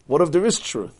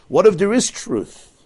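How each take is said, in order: First: Said in the usual way. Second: Slow, higher, louder, each word weighed; emphatic question. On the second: Shown as a demonstration. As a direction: press the question slowly and intensely. Pondering a challenging question.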